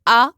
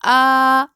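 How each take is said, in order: First: The vowel is cut short without drawing out. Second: The vowel is drawn out for a long time. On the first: "मैंने यूं नहीं पढ़ा" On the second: "मैं हर हर्फ को देर तक पढ़ रही हूँ"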